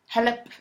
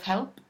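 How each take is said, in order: First: An extra vowel splits the l and p. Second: The l and p join with no vowel. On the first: The speaker calls it wrong. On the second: The speaker calls it right.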